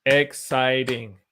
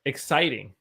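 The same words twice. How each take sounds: First: Exciting slowly, ex-ci-ting, each syllable drawn out; slow syllable demo. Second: Said in the usual way. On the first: Shown as a demonstration. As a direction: spell Exciting out slowly by sound. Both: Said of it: "Three syllables".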